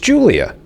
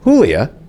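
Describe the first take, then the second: First: The name starts with an English J sound. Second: The name starts with an H sound. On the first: The speaker calls it right. "it's Julia ... we have no problem pronouncing that with the J" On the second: The speaker calls it wrong. "It's not Julia"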